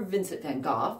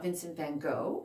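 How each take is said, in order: First: It is said with a British pronunciation. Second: It is said with an American pronunciation.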